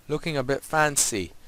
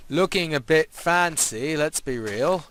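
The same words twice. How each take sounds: First: Said in the usual way. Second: Slow, drawn-out thrown-on voice; put-on voice. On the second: Player admires his road for viewers, slow put-on voice. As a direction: chuck on a silly voice, stretching the words. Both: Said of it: "me voice that I've just thrown".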